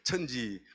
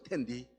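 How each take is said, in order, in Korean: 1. 한국식 발음으로 읽습니다, cheonji. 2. 중국식 발음으로 읽습니다, tiandi. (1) "그걸 제가 다 한국말로 읽어요" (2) "중국 발음"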